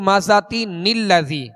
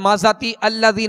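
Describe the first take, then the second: First: An n sound links the two words together. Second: The words are separate with no n sound. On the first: The speaker calls it right. "जैसे" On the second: The speaker calls it wrong. "नहीं पढ़ेंगे"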